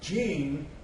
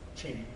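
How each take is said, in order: First: The word begins with a soft J sound. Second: The word begins with a sharp CH sound. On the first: The word is spelled without an apostrophe. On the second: The word is spelled with an apostrophe.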